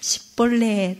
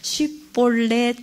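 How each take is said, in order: First: The first sound is 's', Ephraimite dialect speech. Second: The first sound is 'sh', standard Hebrew speech.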